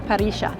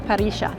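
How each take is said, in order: First: The double L sounds like 'sh'. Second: The same.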